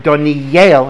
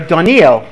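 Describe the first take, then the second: First: The name is said the Hebrew way. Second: The name is said the English way. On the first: The speaker calls it right. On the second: The speaker calls it wrong.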